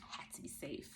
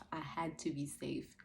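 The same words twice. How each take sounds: First: Soft breathy whisper. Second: Said slowly and firmly, voiced. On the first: Mother tells viewers why she kept her child close, whispered. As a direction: drop to a whisper on the words had to be safe. Repeats the phrase, first whispered. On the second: Mother repeats to viewers that she had to be safe, slow and firm. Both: Real, not acted.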